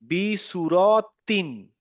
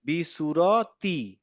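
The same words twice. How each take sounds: First: বি সুরতিন stretched very slowly, ending in a clear নুন; slow recitation. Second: বি সুরতি stretched very slowly with the final নুন dropped; merged recitation. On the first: Teacher to student, slowly reading বি সুরতিন with the noon. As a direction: draw out বি সুরতিন syllable by syllable. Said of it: "এখানে দেখেন". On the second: Teacher to student, slowly reading বি সুরতি with the noon dropped. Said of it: "দেখেন এখানে চেহারাটা কেমন দাঁড়ালো". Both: Shown as a demonstration.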